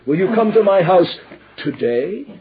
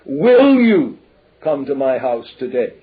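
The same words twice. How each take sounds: First: The stress is on "today". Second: The stress is on "will".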